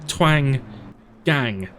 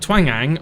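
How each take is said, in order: First: The name is split into two words. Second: The name runs together as one word.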